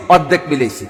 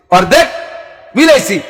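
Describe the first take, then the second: First: Said in the usual way. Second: অর্ধেক and মিলাইছি said apart with a pause between; split for emphasis. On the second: Shown as a demonstration. Preacher drives home the half match, word by word.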